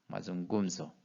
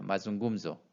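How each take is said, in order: First: 마중금소 softly, 구 still stressed. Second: 마중금소 with 구 stressed. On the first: Teacher repeats the model word quietly, 구 stressed. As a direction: repeat 마중금소 gently, weight on 구. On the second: Teacher models the word for the class, 구 stressed. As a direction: hit the syllable 구 in 마중금소. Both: Shown as a demonstration. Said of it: "ngu의 강세가 오겠죠".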